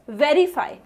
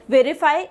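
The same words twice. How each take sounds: First: "verify" with a clear stressed first syllable, VE-rify; correct pronunciation. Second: "verify" with the first syllable unstressed and weakened; wrong pronunciation. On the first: Teacher corrects students with the model word, correct pronunciation. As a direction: stress the start of "verify", then let it fall. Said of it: "it's verify". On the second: Teacher warns students how not to say it, wrong pronunciation. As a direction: say "verify" wrongly, without the punch on VE. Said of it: "Do not say it as verify". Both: Shown as a demonstration.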